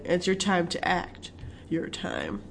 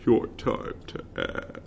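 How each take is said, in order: First: Soft commercial read; hushed promo voice; quiet ad voice. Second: Slow breathy whisper. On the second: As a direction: whisper it like a teaser ad. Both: Retold or imitated.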